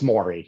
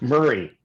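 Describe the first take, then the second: First: The first vowel sounds like 'more'. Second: The first vowel sounds like 'fur'. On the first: The speaker calls it right. "it's it's Maury" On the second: The speaker calls it wrong. "When people mispronounce your name, how do they mispronounce it? Murray, often"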